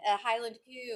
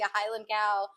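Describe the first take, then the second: First: Cow is said with a Scottish 'coo' vowel. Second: Cow is said with a standard American vowel.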